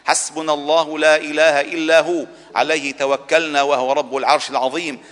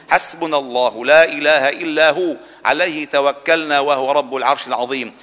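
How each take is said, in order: Both takes have the same delivery.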